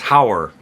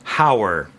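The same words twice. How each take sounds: First: The two words blend into one short syllable. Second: The two words blend into one short syllable.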